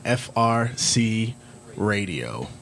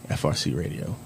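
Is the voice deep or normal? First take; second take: normal; deep. First: It is said in a normal speaking voice. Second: It is said in a put-on deep voice.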